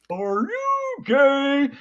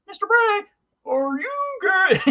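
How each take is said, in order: First: High, slow, drawn-out silly voice; funny mock voice. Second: Very high, slow, laughing silly voice; funny mock voice. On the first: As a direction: stretch it out like a class clown teasing the teacher. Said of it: "our friend in this kind of funny voice he did go". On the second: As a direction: squeak it out slowly like a teasing schoolboy. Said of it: "in this kind of funny voice".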